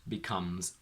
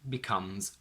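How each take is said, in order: Both takes have the same delivery.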